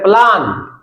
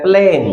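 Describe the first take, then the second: First: प्लान with a long 'aa', plaan; British-style vowel. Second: प्लेन with an 'e' vowel, plen; American-style vowel. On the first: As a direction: say प्लान as 'plaan'. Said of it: "जिस चीज को हम बोलते हैं". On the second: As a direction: say प्लेन as 'plen'. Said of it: "वो बोलते हैं प्लेन". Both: Shown as a demonstration.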